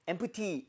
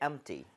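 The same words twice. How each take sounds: First: The middle P sound is clearly pronounced. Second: The middle P sound is nearly silent. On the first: The speaker calls it wrong. "empty 이게 아니라" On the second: The speaker calls it right. "P 사운드가 거의 사라지게 돼요"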